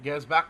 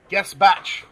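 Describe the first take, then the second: First: "Gersbach" with "Gers" as first syllable; corrected pronunciation. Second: "Gasbach" with no R in the first syllable; unsure pronunciation. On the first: Repeating a co-host's correction of the player's name, corrected pronunciation. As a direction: repeat "Gersbach" with the S sounded before "bach". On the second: Reading out the squad list, unsure pronunciation. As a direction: try "Gasbach" as a doubtful first guess. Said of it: "Is that how you say his name?". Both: Real, not acted.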